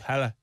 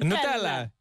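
First: It is said in an Irish accent. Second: It is said in an Italian accent.

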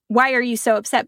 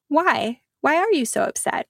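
First: It sounds critical and judging. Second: It sounds gentle and curious.

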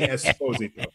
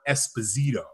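First: The name is said with an Italian pronunciation. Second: The name is said with an American pronunciation. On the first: This is the original form of the name. "But it's really" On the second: This is how people in America say the name. "In our country, America, we call it"

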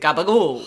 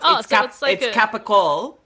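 First: The word begins with a voiced g sound. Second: The word begins with a voiceless k sound. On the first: This is the Italian-American altered form. "By the American Italians into gabagool" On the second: This is the original Italian form. "That's what it's called in Italian"

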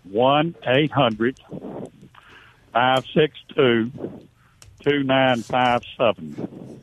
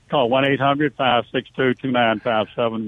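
First: The number is said slowly. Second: The number is said quickly.

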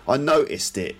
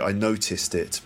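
First: The T sound is dropped. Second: The T sound is pronounced. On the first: "Cockney would say noticed" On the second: "Which is obviously"

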